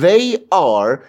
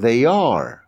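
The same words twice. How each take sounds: First: The two words are said separately. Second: The two words are run together. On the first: The speaker calls it wrong. "به جای اینکه بگم they are" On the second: The speaker calls it right. "کلمه ها رو به هم میچسبونم"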